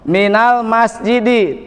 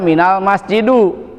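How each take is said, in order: First: The last word ends with an i vowel. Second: The last word ends with a u vowel. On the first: The speaker calls it right. "harus kasroh" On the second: The speaker calls it wrong. "tidak boleh dibaca"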